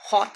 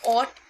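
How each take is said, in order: First: It is one syllable starting with an h sound. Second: It is one syllable with no h sound. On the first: Some people say it this way. "कुछ लोग इसे हॉट कहते हैं" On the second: This is the brand's actual pronunciation. "Actually में ऑट इसकी pronunciation है।"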